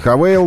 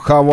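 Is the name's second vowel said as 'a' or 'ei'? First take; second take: ei; a. First: The second vowel is the diphthong 'ei'. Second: The second vowel is a plain 'a'. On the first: This is the way the company wants the name said. "Они хотят, чтобы они были Хавейл" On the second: This is the local way of saying the name. "на наш манер произношения их уже именуем Хавал"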